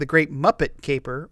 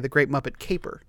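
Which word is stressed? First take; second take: muppet; caper. First: The stress falls on the word Muppet. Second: The stress falls on the word Caper. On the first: "Do you put the emphasis on Muppet?" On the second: "or do you say"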